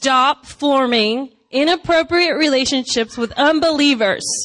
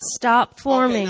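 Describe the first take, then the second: First: It is read in a forceful, commanding tone. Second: It is read in a gentle, nice tone.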